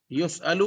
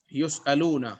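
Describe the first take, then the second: First: یسأل said crisply as yus'al with no ending; singular verb form. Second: یسألون with a clear long -un ending; plural verb form. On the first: Teacher shows students the singular form یسأل. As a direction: stop short on یسأل, singular. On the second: Teacher contrasts the plural form یسألون for students. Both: Shown as a demonstration. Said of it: "کیونکہ دیکھیں یہ singular ہے۔".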